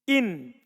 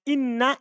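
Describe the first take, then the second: First: The n is single, ending the word. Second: The n is doubled, followed by a vowel. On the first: "hilang tasdidnya menjadi sukun" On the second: "namanya tasdid itu berat"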